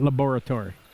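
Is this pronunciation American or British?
British. It is said in a British way. The speaker calls it wrong. "not laboratory"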